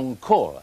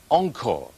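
First: The stress is on the second syllable. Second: The stress is on the first syllable. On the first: "将重音摆在后边" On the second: "将重音摆在前边"

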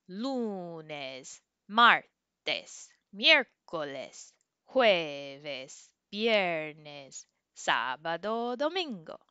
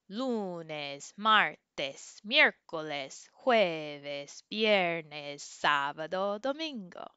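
First: The days are said slowly. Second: The days are said at normal speed.

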